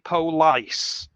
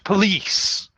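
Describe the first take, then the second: First: The first vowel is a full 'o' sound. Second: The first vowel is a weak schwa sound. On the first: The speaker calls it wrong. "pronounce this word the way it was spelt" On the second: The speaker calls it right. "the O is changed to a schwa sound"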